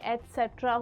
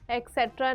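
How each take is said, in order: First: It begins with an 'ets' sound. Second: It begins with an 'eks' sound. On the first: The speaker calls it right. "एटसेट्रा होता है" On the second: The speaker calls it wrong. "एक्सेट्रा नहीं"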